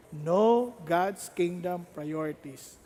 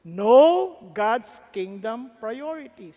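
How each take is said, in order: First: Every word slow and lower, closing softly; slow quiet restatement. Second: Every word slow and louder, punched out; slow emphatic headline. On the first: Preacher to congregation, restating the key point slowly and softly. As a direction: lay the point down gently and slowly. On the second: Preacher to congregation, announcing the key point slowly and loudly. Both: Shown as a demonstration.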